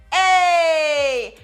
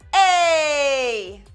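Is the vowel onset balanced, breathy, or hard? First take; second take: hard; hard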